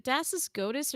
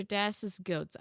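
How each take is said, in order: First: "Goatus" in two syllables; alternative pronunciation. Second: "Goats" as one syllable; alternative pronunciation. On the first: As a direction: say "Goatus" with an added -us ending. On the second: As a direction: say "Goats" like the animals. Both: Shown as a demonstration. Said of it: "Am I saying this wrong?".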